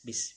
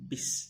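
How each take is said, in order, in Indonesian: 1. Bunyi b terdengar kosong dan hampa. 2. Bunyi b terdengar penuh, bibir ditutup dulu. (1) "Kebiasaan kita membaca ya bis, ... agak terdengar seperti kosong kedengarannya" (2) "agak berisi jadinya"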